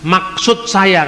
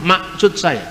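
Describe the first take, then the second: First: Said in the usual way. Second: Maksud with the middle k dropped, masut; Batak pronunciation. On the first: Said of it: "sulit untuk mengatakan huruf K di tengah". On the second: Shown as a demonstration. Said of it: "kan orang Batak nggak ngomong". (logat Batak, k di tengah hilang)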